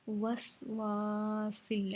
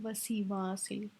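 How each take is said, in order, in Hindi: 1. पहले s के बाद सीधे w आता है। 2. पहले s के बाद एक अतिरिक्त i स्वर आता है। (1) "वसवा है, वसीवा नहीं है" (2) "बहुत सारे लोग गलती करते हैं ... ज़ेर पढ़ लेते हैं"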